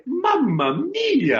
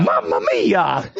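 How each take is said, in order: First: Very high, slow cartoon Italian exclamation; Mario. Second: Slow, drawn-out imitation in a lower natural register; amateur Mario. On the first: Shown as a demonstration. Voice actor giving the host a line to copy, Mario. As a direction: stretch it out high, falling at the end. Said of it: "Say that then". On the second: Host echoing the voice actor, amateur Mario. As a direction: copy the cartoon plumber, slow and low.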